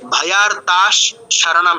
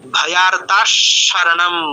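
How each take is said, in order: First: The visarga is a full, separate s sound. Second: The visarga sounds only lightly like s. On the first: The speaker calls it wrong. "এরকম কিন্তু নয়, পুরো স আসেনি।" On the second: The speaker calls it right. "মনে হবে যেন বিসর্গটা এরকম স হয়ে গেছে, কিন্তু আলাদা পুরো স নয়।"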